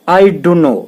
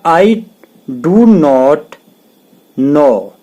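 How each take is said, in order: First: The words run together into a reduced form. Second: Every word is said fully and separately.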